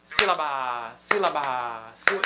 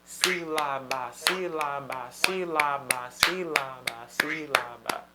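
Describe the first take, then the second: First: "sílaba" with quick start and dragged-out last syllable, low; ultima sillaba allungata. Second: "Sílaba" in slow, perfectly even syllables, low; sillabe di uguale durata. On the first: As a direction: rush "síla", then hold the final "ba" too long. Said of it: "A última tá durando mais". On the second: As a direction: give all three syllables of "Sílaba" the same length, chanting slowly. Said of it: "cada nota durar o mesmo tempo". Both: Shown as a demonstration.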